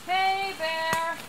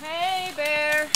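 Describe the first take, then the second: First: High call into the woods; scaring off a bear. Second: Higher, drawn-out call to a bear; scaring off a bear. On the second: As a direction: call it out long across the forest. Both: Real, not acted. Calling out to warn bear.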